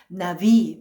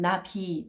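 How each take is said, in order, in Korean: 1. 두 번째 자음은 유성 마찰음이에요. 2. 두 번째 자음은 유성 폐쇄음이에요. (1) "또 유성 마찰음이 돼요" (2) "유성 폐쇄 유성 폐쇄음이지만"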